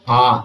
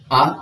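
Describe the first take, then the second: First: आ drawn out long as a dirgha vowel; आ held twice as long as the short one. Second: Short, clipped आ as a hrasva vowel; आ held for a single short beat. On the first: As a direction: stretch आ to two beats. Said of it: "दीर्घ स्वर में है आ". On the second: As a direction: say आ quick, one beat only. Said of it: "कम समय लग रहा है". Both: Shown as a demonstration.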